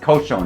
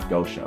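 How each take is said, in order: First: The word begins with a K sound. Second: The word begins with a G sound. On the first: The speaker calls it right. "it's kosho" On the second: The speaker calls it wrong. "not gosho"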